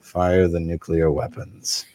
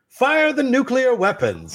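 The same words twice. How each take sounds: First: It is said in a quiet, subdued tone. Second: It is said in a cheerful, happy tone.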